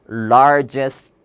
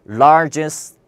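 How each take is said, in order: The two takes are said the same way.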